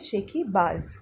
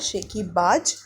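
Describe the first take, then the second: First: The word ends with a z sound. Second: The word ends with a j sound. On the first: "इसको आप बोलेंगे ... ज के नीचे एक बिंदी लगी हुई है" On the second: "उसको आपने बोला"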